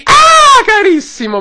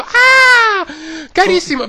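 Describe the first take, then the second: First: High screechy squeal of delight; very high, loud shrill cry. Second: High, whiny squeal; shrill, crying-edged squeak. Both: Retold or imitated. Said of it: "Con questa voce stridula".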